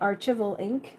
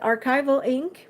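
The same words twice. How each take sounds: First: Archival is pronounced with a French-influenced accent. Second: Archival is pronounced the standard English way. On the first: The speaker calls it wrong. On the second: The speaker calls it right.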